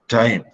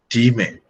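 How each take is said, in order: First: The vowel sounds like 'eye', final e silent. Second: The vowel is a long 'ee', final e sounded. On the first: This is the modern pronunciation. "the word time" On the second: This is how it was said in Shakespeare's day. "in Shakespeare's time ... was pronounced time"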